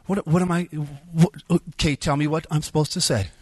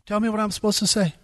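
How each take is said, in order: First: Mildly exasperated, stammering into a demand; exasperated arguing. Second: Higher, faster repeat demand; insistent arguing. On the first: Speaker fights with God in his mind, exasperated. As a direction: argue back at God, a little raised. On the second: Speaker fights with God in his mind, more insistent. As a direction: press the demand harder, pitched up and quick. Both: Retold or imitated. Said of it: "started fighting with God in my mind".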